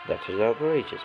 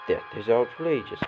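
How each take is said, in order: First: It is said in a put-on French accent. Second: It is said in the speaker's plain voice.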